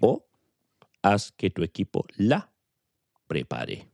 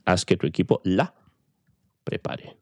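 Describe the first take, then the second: First: It is said slowly and carefully. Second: It is said at normal speed.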